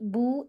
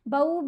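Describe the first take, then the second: First: It is read with a plain long 'oo' vowel. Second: It is read with an 'a' gliding into 'w'. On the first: The speaker calls it wrong. "ऐसे नहीं पढ़ना" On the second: The speaker calls it right. "बाजबर वाव साकिन बऊ"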